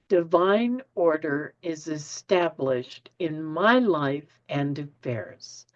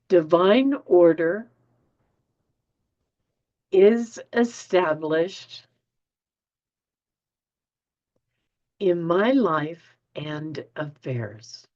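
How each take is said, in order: First: It is said at a normal pace. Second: It is said more slowly.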